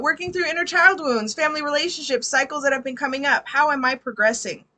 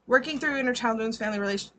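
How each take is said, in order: First: High, louder reading of a question; animated read-aloud. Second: Said in the usual way. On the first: Real, not acted. Reader restarts client's question after greeting, animated read-aloud. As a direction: read it out brightly to the room.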